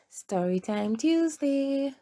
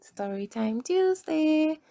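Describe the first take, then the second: First: Said in the usual way. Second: Higher, cheerful answer to her own question; excited call-out. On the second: Shown as a demonstration. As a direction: sing out the show's name like a cheer. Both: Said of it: "What time is it?".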